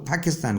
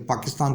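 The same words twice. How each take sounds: First: پاکستان with an English aspirated P; English-accented پاکستان, puff of air on the P; English-speaker accent. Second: Said in the usual way. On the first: Retold or imitated. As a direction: imitate an English accent, "Phakistan". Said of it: "پاکستان کو پاکستان کہتے ہیں". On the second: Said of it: "پاکستان والا".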